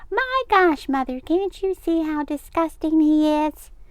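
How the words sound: It is said in a high, squeaky voice.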